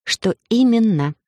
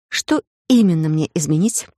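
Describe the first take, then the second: First: Slow, higher, insistent question; needling repetition. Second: Said in the usual way. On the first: A narrator's reading. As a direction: ask again slowly to needle him. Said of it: "решив немного повредничать". (вредничая, медленно переспрашивая)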